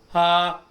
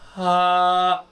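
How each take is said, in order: First: The sound is said quickly and normally. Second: The sound is drawn out slowly. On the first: "Fast forward this, and it sounds something like a normal ha" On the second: "in slow motion"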